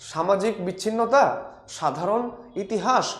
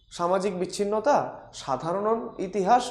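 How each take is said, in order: Both takes have the same delivery.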